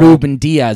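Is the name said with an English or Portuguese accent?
English. It is said with an English accent.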